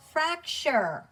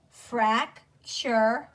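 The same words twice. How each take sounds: First: "fracture" joined as FRAC-chur, falling tune; blended word. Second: "Fracture" split into FRAC, CHUR with a gap; sounding out. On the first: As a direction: run the syllables of "fracture" together. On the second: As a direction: say "Fracture" syllable by syllable, rising. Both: Shown as a demonstration. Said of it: "Sound it out with me".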